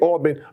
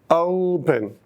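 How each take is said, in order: First: The first vowel is one steady sound. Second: The first vowel glides between two positions. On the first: The speaker calls it wrong. "I don't say open" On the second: The speaker calls it right. "You notice the two movements"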